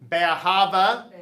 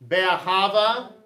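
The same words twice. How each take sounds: Both takes have the same delivery.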